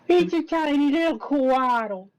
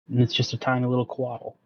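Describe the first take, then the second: First: It is said in a Carl Wheezer voice. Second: It is said in his normal voice.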